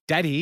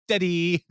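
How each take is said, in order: First: A light, higher imitation of John Ralphio's childish "Daddy."; sing-song "Daddy." pitched up as the grown man-child. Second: The higher mock "Daddy." again, drawn out a bit; man-child whine on "Daddy.", pitched up; John Ralphio. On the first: Roommate greets the dad with a higher mock "Daddy.". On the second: Roommate repeats his higher mock "Daddy." greeting. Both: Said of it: "John Ralphio comes out, like".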